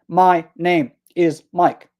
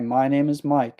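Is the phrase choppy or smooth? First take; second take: choppy; smooth. First: Each word is separated by a small stop. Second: The words flow together without stops. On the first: The speaker calls it wrong. "force a stop between each word" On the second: The speaker calls it right. "Just relax and just continue speaking"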